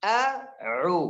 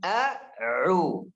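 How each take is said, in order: The two takes are said the same way.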